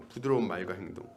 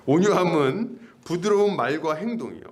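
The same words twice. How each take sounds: First: Repeated softly and lower; a soft, low echo of the phrase. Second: Said in the usual way. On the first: Shown as a demonstration. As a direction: let the phrase settle gently.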